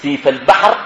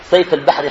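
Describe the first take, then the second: First: "سيف" said as "seef", long ee; kasra on seen. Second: "سيف" said as "sayf", with an ay; mispronounced vowel. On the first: Teacher correcting the place name, "سيف" pronounced "seef". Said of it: "بكسر السين". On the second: Teacher showing how people misread the name, "سيف" as "sayf". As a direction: say "سيف" with the vowel of the word for sword. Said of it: "سيف البحر خطأ، بكسر السين". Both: Shown as a demonstration.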